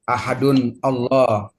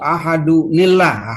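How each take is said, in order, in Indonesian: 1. Nun berhenti sebelum kata berikutnya yang terpisah. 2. Nun tersambung ke kata berikutnya dengan bunyi i. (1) "tidak boleh dibaca" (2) "Langsung sambung sambung"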